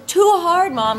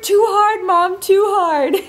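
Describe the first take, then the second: First: Put-on high-pitched little-kid complaint; lightly strained toddler voice, pitched up; imitated toddler. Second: Put-on high, strained little-kid wail; hammed-up high whine, slowing at the end; imitated straining toddler. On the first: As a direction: mimic a small child struggling. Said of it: "And she goes". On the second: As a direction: mimic a toddler pushing as hard as she can. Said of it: "as hard as she can, and she goes".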